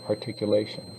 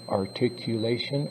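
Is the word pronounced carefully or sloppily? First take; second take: sloppily; carefully. First: The syllables are slurred together and unclear. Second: Every syllable is pronounced clearly and fully. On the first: The speaker calls it wrong. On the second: The speaker calls it right.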